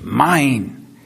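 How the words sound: It sounds grabby and childish, like a possessive child. The claim is selfish and possessive. The speaker calls it wrong. "You've seen a child say that in an unrighteous way"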